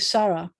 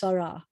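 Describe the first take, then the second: First: The stress is on the first syllable. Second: The stress is on the last syllable. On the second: This is the modern Israeli pronunciation. "in modern Israel is Sarah"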